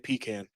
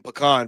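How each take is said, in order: First: It is said the speaker's own northern way. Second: It is said the standard, non-northern way. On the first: This is how northerners say it. "But I say pecan. ... it's a northerner thing" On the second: This is how it is usually pronounced. "it's pronounced like that if I'm not mistaken"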